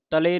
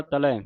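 First: ਤਲੇ with a close "-e" ending; wrong vowel shown. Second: ਤਲੈ with an open "-ai" ending; correct vowel shown. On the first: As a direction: end ਤਲੇ on "lay". (ਤਲੇ ਨੂੰ ਲਾਂ ਨਾਲ ਬੋਲੋ) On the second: (ਤਲੈ ਨੂੰ ਦੁਲਾਵਾਂ ਨਾਲ ਬੋਲੋ) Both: Shown as a demonstration. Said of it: "ਤਲੇ ਨਹੀਂ ਪੜ੍ਹ ਦੇਣਾ".

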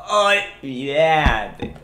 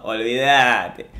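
First: Olvídate stretched very slowly in a put-on voice; very drawn out. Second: Slow, stretched olvídate; drawn out. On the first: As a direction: drag olvídate out as long as you can. (olvídate estiradísimo, muy lento) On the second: (olvídate arrastrado y lento) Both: Shown as a demonstration.

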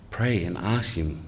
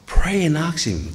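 First: Said in the usual way. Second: Higher, slow, urgent "pray and ask him"; an earnest call to pray; urgent plea. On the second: Acted. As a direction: press them hard to pray. Preacher urging congregation.

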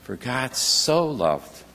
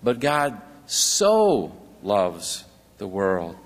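First: "so" drawn out, slow and lower; stress on so. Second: "so" stretched long, slow and lower; stress on so. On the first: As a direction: lean slowly on the word "so". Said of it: "Isn't that little word "so" a treasure?". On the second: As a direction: linger on "so" to show how much. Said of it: "God doesn't just love the world". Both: Shown as a demonstration.

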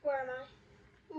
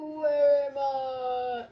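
First: Said in the usual way. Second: Much slower, louder, stretched out like a lost ghost; drawn-out wail. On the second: Acted. Gamer lost on the map, wailing the question slowly and loudly.

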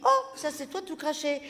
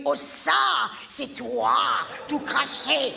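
First: Said in the usual way. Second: Sharp shout on c'est toi; a telling-off tone, hammed up; snappy tone. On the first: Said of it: "j'ai dit". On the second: Shown as a demonstration. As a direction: bite the words out with real attitude. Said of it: "Ça, c'est un ton".

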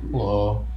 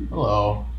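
No difference in how they are said.

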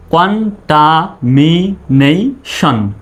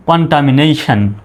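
First: contamination very slowly, syllable by syllable; broken into syllables. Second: Said in the usual way. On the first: Shown as a demonstration. Teacher sounding out the spelled word, contamination in separate syllables. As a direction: split contamination into separate beats. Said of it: "আগে ভেঙে ভেঙে উচ্চারণ করবেন". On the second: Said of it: "তারপরে একসঙ্গে বলবেন".

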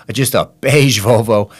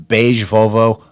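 First: Laughing. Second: Said in the usual way. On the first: Real, not acted. Mocking the dull family car.

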